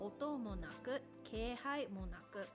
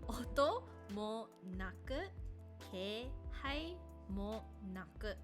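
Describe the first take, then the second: First: The phrase is spoken at a faster pace. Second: The phrase is spoken very slowly. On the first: "So it's faster" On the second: "we're just gonna say this really slowly"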